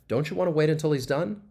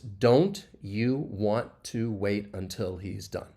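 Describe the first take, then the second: First: The words run together in connected speech. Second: Each word is said separately and clearly. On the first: "say it together as like connected speech" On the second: "if I were to say the individual words"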